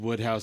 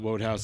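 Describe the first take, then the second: First: The first syllable sounds like wood. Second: The first syllable rhymes with code. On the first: The speaker calls it right. "It's Woodhouse" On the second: The speaker calls it wrong. "not Wodehouse"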